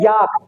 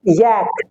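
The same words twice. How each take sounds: First: याक with a long aa; the usual wrong याक; wrong yak. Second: यैक low with a flat ae; correct yak. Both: Shown as a demonstration. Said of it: "पर होता क्या है".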